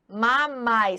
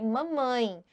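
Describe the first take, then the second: First: The final vowel is oral, without nasalization. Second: The final vowel is strongly nasalized. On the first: "Sai tudo pela boca. Não sai nada pelas fossas nasais" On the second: "que é a coisa mais nasalizada que a gente tem"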